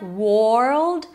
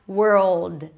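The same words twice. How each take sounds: First: An O-like vowel sounds between the W and R. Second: The W moves straight into the R sound. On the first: The speaker calls it wrong. "There is no O in the middle, so don't say something like world" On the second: The speaker calls it right. "Just switch from the W to the R and be chill"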